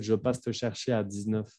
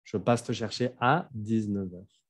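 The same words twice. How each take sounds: First: A quick, softer "à dix-neuf" that stops short, leaving out heures; teacher showing a common student mistake; wrong example. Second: Said in the usual way. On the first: Shown as a demonstration. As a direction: say it the wrong way, cutting off before heures. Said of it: "No pueden decir". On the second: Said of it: "Faltaría algo".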